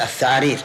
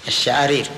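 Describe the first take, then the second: First: The word begins with a 'th' sound. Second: The word begins with a 'sh' sound. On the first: This is how a man missing his front teeth said it. "كانه نطق بها هكذا الثعارير" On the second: This is the word he meant to say. "يبي يقول الشعارير"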